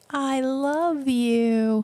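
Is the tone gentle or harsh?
gentle. It is said in a warm, gentle tone. The listener feels loved and happy. "then they're like, oh, oh, so happy"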